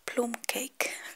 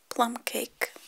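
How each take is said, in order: First: It is said with an Italian pronunciation. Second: It is said with an English pronunciation.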